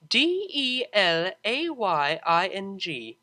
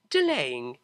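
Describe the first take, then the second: First: D E L A Y I N G said slowly letter by letter; spelled letter by letter. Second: Said in the usual way. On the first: A narrator's reading. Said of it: "spells the word". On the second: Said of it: "spelling the word".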